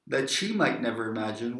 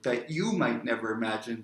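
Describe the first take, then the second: First: "she" picked out with a pitch swell; stress on she. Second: "you" picked out with a pitch swell; stress on you. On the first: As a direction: lean on the word "she", then settle low. Repeats line, then corrects pronoun. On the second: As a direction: correct yourself by leaning on "you". Corrects "she" to "you. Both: Shown as a demonstration.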